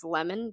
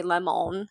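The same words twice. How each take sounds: First: LEMON as LEM-un, reduced o; schwa ending. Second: LEMON as lem-OWN, full o; unreduced vowel. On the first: Teacher on students recognizing the word, lemon as lem-un. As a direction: say lemon with a weak second vowel. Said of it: "recognize that the word is lemon". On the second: Teacher on what students don't say, lemon as lem-own. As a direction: give lemon a full long o at the end. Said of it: "they don't say lemon". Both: Shown as a demonstration.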